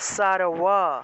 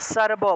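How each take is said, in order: First: The middle consonant is a w without closed lips. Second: The middle consonant is a b with closed lips. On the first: "অন্তস্থ ব হয় সেক্ষেত্রে এটার উচ্চারণটা হবে সারওয়া" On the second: "বর্গীয় ব হয় তাহলে উচ্চারণটা হবে সার ব"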